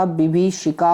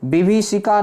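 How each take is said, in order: First: विभीषिका said as bi-bhee-shika; long bhee and sh in विभीषिका; correct form. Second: विभीषिका said as bi-vi-sika; plain s in विभीषिका; wrong form. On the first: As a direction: clear sh in विभीषिका. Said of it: "होता है". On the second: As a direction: mispronounce विभीषिका with an s. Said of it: "नहीं होता मेरे भाई". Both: Shown as a demonstration.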